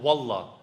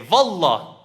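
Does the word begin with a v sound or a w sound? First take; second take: w; v. First: The word begins with a w sound. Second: The word begins with a v sound. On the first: "you've heard Turks when they say, for example" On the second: "So you see the waw turns into a v"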